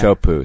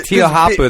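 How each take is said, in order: First: The name is said as a short clipped form. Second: The name is said with every written syllable sounded. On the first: The speaker calls it right. "That's how you pronounce that" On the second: The speaker calls it wrong. "I'd be like"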